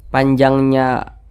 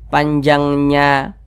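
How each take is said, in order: The two takes are said the same way.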